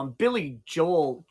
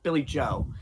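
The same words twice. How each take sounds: First: Says Billy Joel, ending on an L sound; Billy Joel with the final L; wrong name first. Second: Says Billy Joe with no L at the end; Billy Joe, clipped right after the O; corrected name. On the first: Streamer slips on the singer's name, says [name]. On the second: Streamer corrects himself to [name]. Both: Real, not acted.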